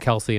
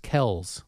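First: The name is said the commonly heard way. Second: The name is said the family's original way. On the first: This is how everyone else says it. The speaker calls it wrong. "everyone kept saying Kelce" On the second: This is the family's original pronunciation. The speaker calls it right. "the correct way to say their last name is Kells"

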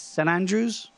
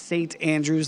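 First: The T at the end of 'Saint' is dropped. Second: The T at the end of 'Saint' is pronounced. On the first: This is how the locals say it. The speaker calls it right. "They don't say it with the T. It's St. Andrews" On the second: This is how outsiders say it. The speaker calls it wrong. "We say St. Andrews, and they probably cringe"

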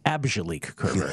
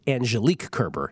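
First: The first name begins with an 'ab' sound. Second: The first name begins with an 'anj' sound. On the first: The speaker calls it wrong. "not Abjelique Kerber" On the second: The speaker calls it right. "that's against Angelique Kerber"

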